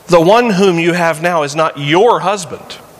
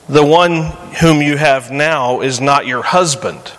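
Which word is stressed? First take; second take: your; husband. First: The word your carries the emphasis. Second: The word husband carries the emphasis. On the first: The man is married to someone else. "Just suggests the possibility that the one she has now is actually someone else's husband" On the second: The man is not married to her. "They're not married"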